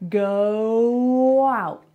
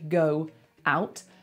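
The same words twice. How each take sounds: First: A w sound links the two words together. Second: The two words are said separately without linking. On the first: The speaker calls it right. "Oh, look, it's a w" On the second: The speaker calls it wrong. "we don't want to say go out"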